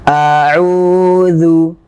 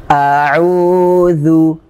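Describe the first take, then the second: Both takes have the same delivery.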